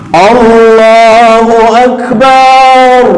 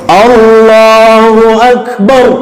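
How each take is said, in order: First: The vowel in akbar's last syllable is drawn out. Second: The vowel in akbar's last syllable is short. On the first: God is a drum. The speaker calls it wrong. "Coba kalau banyak kita panjangkan" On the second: God is the greatest. The speaker calls it right. "Banyak pendek atau panjang? Pendek"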